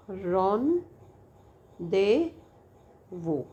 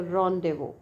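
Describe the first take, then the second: First: रॉन, दे, वो separated by long pauses; syllable by syllable. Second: Said in the usual way. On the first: Shown as a demonstration. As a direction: break it into रॉन... दे... वो, one syllable at a time. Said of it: "one syllable at a time". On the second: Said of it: "three syllable word है ये".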